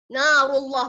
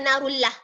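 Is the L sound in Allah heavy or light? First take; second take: heavy; light. First: The L in Allah is heavy and thick. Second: The L in Allah is light and thin. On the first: The speaker calls it right. "kena baca dengan tebal" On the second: The speaker calls it wrong.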